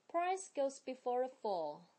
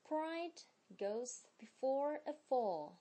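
First: "Price" ends on a sharp unvoiced s; crisp price. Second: "Pride" said slowly with a clear voiced d at the end; slow careful pride. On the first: Teacher contrasting "Price" with pride, crisp s ending. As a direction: snap the s of "Price" against pride. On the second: Teacher modelling "Pride" for the class, slow and exact. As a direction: stretch "Pride" out and land the final d. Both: Shown as a demonstration. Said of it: "接下来是句子的练习".

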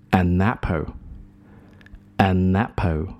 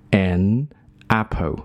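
First: "an apple" run together as "a-napple"; slow demo linking the N of "an" into "apple"; linked pronunciation. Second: "an apple" as two separate words, gap after "an"; unlinked pronunciation. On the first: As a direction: glide "an apple" into one word, a-NAPPLE. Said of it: "你可以把N和后面的这个A连读". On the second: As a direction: split "an" from "apple", no linking. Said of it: "那它原来的是发an". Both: Shown as a demonstration.

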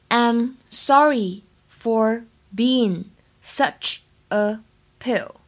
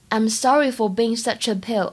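First: Drawn out slowly, word by word; slow model sentence for students; very slow teaching read. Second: Said in the usual way. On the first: Shown as a demonstration. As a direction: stretch it out so learners can follow. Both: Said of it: "整句话的发音技巧呢".

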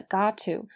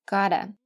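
First: "got to" as two words with a crisp t; unreduced got to. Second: "gotta" with a flapped t like a quick d, weak final vowel; reduced gotta. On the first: Teacher names the form to be changed, unreduced. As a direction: keep a clear t before "to". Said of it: "都应该像最后一句一样发成". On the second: Teacher shows how all got to should sound, reduced. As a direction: soften the middle of "gotta" to a d-like flap. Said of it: "发成". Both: Shown as a demonstration.

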